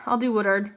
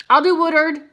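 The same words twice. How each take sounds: First: Said in the usual way. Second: "I'll do Woodard" louder and higher, bouncing on "do"; perky repeat. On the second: Real, not acted. Reader picking the next viewer, announcing "I'll do Woodard" perkily.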